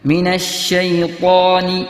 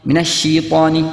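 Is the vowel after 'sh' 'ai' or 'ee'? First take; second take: ai; ee. First: The vowel after 'sh' sounds like 'ai'. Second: The vowel after 'sh' sounds like 'ee'. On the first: The speaker calls it right. "ഫത്ഹ് അതിന്റെ ശേഷം സുക്കൂനുള്ള യാ" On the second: The speaker calls it wrong. "കെസ്റാക്കി ഷീ എന്നോതും... അത് തെറ്റാണ്"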